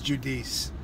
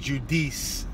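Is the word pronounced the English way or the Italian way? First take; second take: English; Italian. First: The word is pronounced in an English-sounding way. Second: The word is pronounced in an Italian-sounding way. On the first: The speaker calls it right. "It's Judice" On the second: The speaker calls it wrong. "I made it sound Italian"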